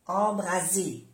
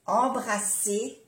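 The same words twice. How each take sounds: First: "embraser" with a voiced z, falling; soft Z. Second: "embrasser" slowly, with an unvoiced s; double S. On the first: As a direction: say "embraser" with a buzzing z. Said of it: "y embraser es incendiar". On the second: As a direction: stretch "embrasser" with a hissed s, rising. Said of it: "embrasser es abrazar". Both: Shown as a demonstration.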